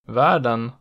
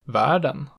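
First: The pitch peaks on the stressed vowel. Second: The pitch peaks just after the stressed vowel. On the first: "peaking on the stressed vowel in accent 1" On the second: "just after it in accent 2"

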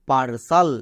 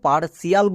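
First: The ending is one syllable, with no 'ee' sound. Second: The ending has an extra 'ee' syllable. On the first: The speaker calls it right. "এর উচ্চারণ হবে সাল" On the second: The speaker calls it wrong. "একে আমরা ভুল করেও পার্সিয়াল বলবো না।"

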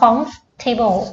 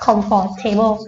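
First: The word is said with three syllables. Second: The word is said with four syllables. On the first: The speaker calls it right. "อันนี้อ่านว่า comfortable นะคะสามพยางค์" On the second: The speaker calls it wrong. "ถึงแม้มันจะแลดูอ่านว่า"

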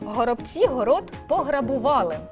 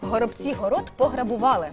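First: It is said slowly, phrase by phrase. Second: It is said quickly, in one go.

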